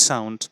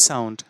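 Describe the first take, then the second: The two takes are said the same way.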